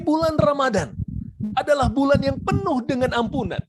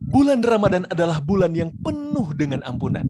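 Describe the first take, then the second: First: The pitch stays high the whole time. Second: The pitch moves between high and low. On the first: The speaker calls it wrong. "ya saya di atas terus nih" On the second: The speaker calls it right. "intonasinya kadang di atas, kadang di bawah"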